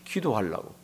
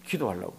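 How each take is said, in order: First: Soft answer. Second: Softer echo. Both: Real, not acted. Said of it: "한나가 오늘은 왜 일어나죠?".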